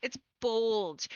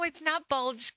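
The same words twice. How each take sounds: First: "bulge" said as "bolge", with a long o; corrected pronunciation. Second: "bulge" said like the ordinary word; wrong pronunciation. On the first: Fan corrects her brother's surname, "bulge" as "bolge". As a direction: round the vowel of "bulge" to rhyme with "old". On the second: Fan rejects the misheard surname, "bulge" with short vowel. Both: Shown as a demonstration. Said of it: "B O L G E".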